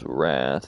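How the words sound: The word is said with an American vowel. "the American pronunciation is wrath"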